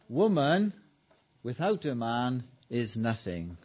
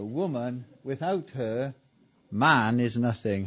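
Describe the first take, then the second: First: It is read straight through without pauses. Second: There are pauses before and after 'without her'. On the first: A woman is nothing without a man. "That's how the men wrote it" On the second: A man is nothing without a woman. "Same sentence, punctuated two different ways"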